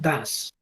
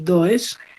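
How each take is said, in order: First: The vowel sounds like 'a', as in das. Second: The vowel sounds like 'o', as spelled. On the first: The speaker calls it right. "esto es do versus das" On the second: The speaker calls it wrong. "Nada de pronunciar como do y does, no"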